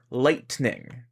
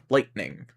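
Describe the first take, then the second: First: The middle T is a full T sound. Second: The middle T is a glottal catch. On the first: "they're not saying lightning" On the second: "closer to being the uh in uh-oh"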